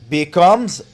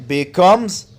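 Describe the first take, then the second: Both takes have the same delivery.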